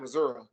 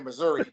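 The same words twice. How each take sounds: First: It is said with a rural local pronunciation. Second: It is said with a standard outsider pronunciation. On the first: This is how rural locals say it. "country people say Missouri" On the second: This is how people from elsewhere say it. "People that's not from uh, Missouri. Missouri say Missouri"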